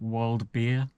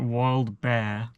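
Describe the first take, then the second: First: The last word rhymes with 'beer'. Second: The last word rhymes with 'bear'. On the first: "so I always pronounce it Wild Beer" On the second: "I think I'm gonna pronounce it Wild Bear"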